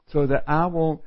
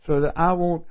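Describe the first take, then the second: No difference in how they are said.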